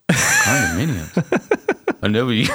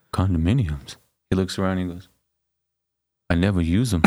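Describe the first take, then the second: First: Stretched out, much higher, baffled Rocky; hammed-up Rocky. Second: A hint of Rocky, slightly lower and mumbled; lightly voiced dim boxer, puzzled. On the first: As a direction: drag out the word Condominiums slowly in a silly Rocky voice. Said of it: "he's so like". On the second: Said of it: "And Rocky goes".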